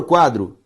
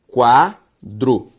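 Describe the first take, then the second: First: Said in the usual way. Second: "quadro" broken into qua, dro; syllable by syllable. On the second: Shown as a demonstration. Teacher separating a word for students, "quadro" syllable by syllable. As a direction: sound out "quadro" in two drawn-out, separate syllables. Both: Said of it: "Se eu separo quadro".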